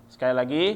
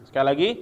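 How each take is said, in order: Both takes have the same delivery.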